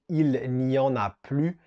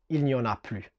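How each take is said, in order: First: The phrase is said slowly and carefully. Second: The phrase is said quickly and run together.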